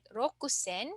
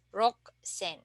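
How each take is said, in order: First: The u after the k is fully pronounced. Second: The u after the k is dropped. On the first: The speaker calls it wrong. "instead of uh, pronouncing it rokusen" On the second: The speaker calls it right. "we don't need to pronounce the U, and we can just say Roksen"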